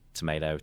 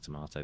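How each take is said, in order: First: It is said with an American pronunciation. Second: It is said with a British pronunciation.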